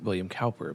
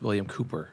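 First: The surname's first vowel sounds like 'cow'. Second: The surname's first vowel sounds like 'coo'. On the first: The speaker calls it wrong. "a lot of people pronounce it William Cowper" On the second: The speaker calls it right. "His name was actually pronounced William Cooper"

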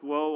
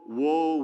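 First: It is said lightly and casually. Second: It is said gravely and seriously.

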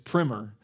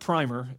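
First: The first vowel sounds like the 'i' in rim. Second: The first vowel sounds like the 'i' in rhyme. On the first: It names a simple introductory text. The speaker calls it right. "it's primer. A primer ... is a simple text that serves as an introduction" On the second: It names a coating put on a wall before painting. The speaker calls it wrong. "it's not primer, Primer is what you put on a wall before you paint it"

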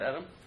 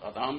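First: The name is said with English vowels and stress. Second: The name is said with Hebrew vowels and stress. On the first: This is the later, familiar form of the name. "before you were called Adam" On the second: This is the original form of the name. "you were first called Adam"

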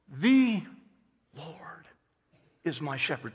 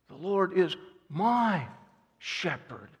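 First: The stress is on "The". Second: The stress is on "is".

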